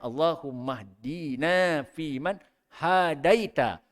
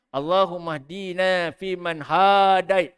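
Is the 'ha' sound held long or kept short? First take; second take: short; long. First: The 'ha' vowel is kept short. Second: The 'ha' vowel is held long. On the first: Guide us among those You have guided. The speaker calls it right. "yang betulnya ... jadi ha tu pendek, bukan panjang" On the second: The meaning of the prayer changes. The speaker calls it wrong. "Ha dipanjangkan"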